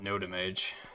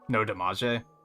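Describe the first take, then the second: First: The name is read with English sounds. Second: The name is read with Japanese-like syllables. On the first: "I will be sure to call it Noda Mage" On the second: "Or you pronounce it more like as if it was Japanese"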